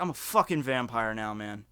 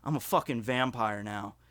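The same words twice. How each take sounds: First: Flat, low deadpan claim, a touch quieter; lightly voiced friend stating it without emotion. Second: Deadpan. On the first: Friend calmly tells the narrator he is a vampire, deadpan. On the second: Retold or imitated. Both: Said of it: "'cause he said it deadpan".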